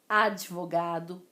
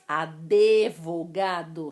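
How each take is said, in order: First: The d joins the v with no extra vowel. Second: An extra e vowel is heard after the d. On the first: This follows the formal pronunciation rules. The speaker calls it right. "a pronúncia de acordo com as regras da ortoépia" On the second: This is informal everyday speech. The speaker calls it wrong. "Só que não existe esse E no advogado"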